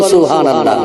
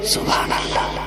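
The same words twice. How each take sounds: First: The word is said loudly. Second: The word is said very softly.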